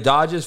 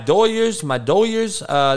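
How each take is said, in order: First: The middle consonant is a d sound. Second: The middle consonant is a y sound. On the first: It is the standard way of saying the name. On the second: "That's how we pronounce the Dodgers"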